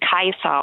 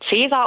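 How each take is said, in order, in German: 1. Er beginnt mit einem k-Laut und einem ai-Vokal. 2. Er beginnt mit einem ts-Laut und einem ä-Vokal. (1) "das C wie ein K und das AE wie ein Ei" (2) "würden viele Leute Cäsar aussprechen"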